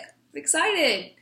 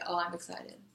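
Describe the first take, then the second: First: It is said with clear excitement. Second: It is said flatly, without excitement.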